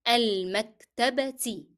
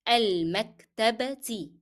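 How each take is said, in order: Both takes have the same delivery.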